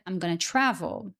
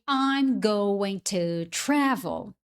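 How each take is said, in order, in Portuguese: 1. 'Going to' é reduzido para 'gonna'. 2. 'Going to' é falado por extenso. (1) "quando o americano fala, naturalmente" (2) "Você aprende"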